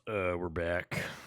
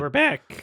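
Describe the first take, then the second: First: It is said in a put-on deep voice. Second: It is said in a natural voice.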